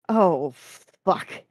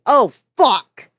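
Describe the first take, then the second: First: Mild, puzzled curse at ordinary volume; bemused. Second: Sudden loud, high shout; angry bark. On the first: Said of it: "said again in bemusement". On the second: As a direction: bark the curse out angrily at full force. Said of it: "suddenly barked an angry". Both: A narrator's reading.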